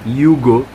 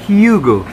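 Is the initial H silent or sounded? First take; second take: silent; sounded. First: The word begins without an H sound. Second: The word begins with an audible H sound. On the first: The speaker calls it wrong. "it's not Hugo" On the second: The speaker calls it right. "yung H daw talaga kailangan"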